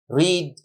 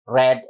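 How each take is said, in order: First: The vowel is a long ee sound. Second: The vowel is a short e sound. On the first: It is the present form of the verb. "Bentuk pertamanya read" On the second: It is the past form of the verb. "bentuk kedua dan tiganya dibaca read dan red"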